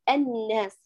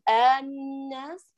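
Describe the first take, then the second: First: The first vowel is fronted toward e. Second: The first vowel is drawn out long. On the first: "ولا أيضا أقول الناس وأميلها هكذا" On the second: "فلا أقول الناس آل وأطيلها"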